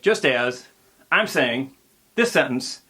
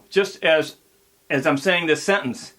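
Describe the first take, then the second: First: The words are grouped in awkward, broken phrases. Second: The words are grouped in natural phrases. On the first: The speaker calls it wrong. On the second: The speaker calls it right.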